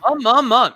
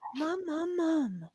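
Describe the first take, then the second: First: The voice is full and projected from the chest. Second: The voice is light and thin, without chest. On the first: The aim is to reach people. The speaker calls it right. "you're actually trying to" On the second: The aim is to sound pretty. The speaker calls it wrong. "You didn't go"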